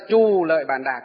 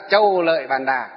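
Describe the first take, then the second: First: The first syllable has a plain 'oo' vowel. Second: The first syllable ends in a gliding 'ow' vowel. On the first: This is the current transcription of the name. "bây giờ phiên âm là" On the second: This is the older transcription of the name. "Ngày xưa mình phiên âm là"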